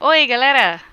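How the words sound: Oi is said with strong emphasis.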